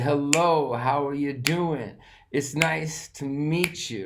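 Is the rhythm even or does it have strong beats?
strong beats. Strong beats fall on lo, do, nice, meet. The speaker calls it right. "Low, do, nice, meet. That's the stress"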